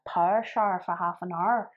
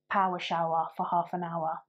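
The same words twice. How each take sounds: First: It is said in a Belfast accent. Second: It is said in a plain accent.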